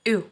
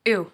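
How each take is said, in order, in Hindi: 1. इस ध्वनि को जीभ से आगे आकार दिया जाता है। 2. इस ध्वनि को जीभ से आगे आकार दिया जाता है।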